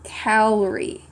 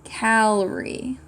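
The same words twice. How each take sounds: First: Calorie said slowly as a wrong reading; slow misreading of "calorie"; misread word. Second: "Calorie" drawn out slowly with a puzzled rise; misread again. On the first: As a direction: read "calorie" slowly as the misspelled word Carly. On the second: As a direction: sound out the wrong spelling "Calorie" slowly. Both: Shown as a demonstration. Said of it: "I'm trying to say Carly".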